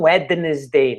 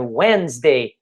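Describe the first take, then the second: First: The middle D sound is pronounced. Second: The middle D sound is silent. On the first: The speaker calls it wrong. "não Wednesday" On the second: The speaker calls it right. "É Wednesday. Então aquele D, ele é anulado na pronúncia"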